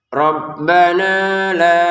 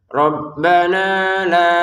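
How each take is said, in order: Both takes have the same delivery.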